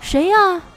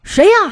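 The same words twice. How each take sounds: First: It is asked louder and higher. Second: It is shouted angrily.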